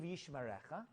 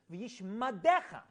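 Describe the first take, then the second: First: V'yishmarecha with a clear r in resh; v'yishmarecha said right, r sound; correct blessing. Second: V'yishmadecha with a d instead of the r; slow, say v'yishmadecha with a d; mispronounced blessing. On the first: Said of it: "Instead of saying". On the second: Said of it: "this guy would always say". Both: Shown as a demonstration.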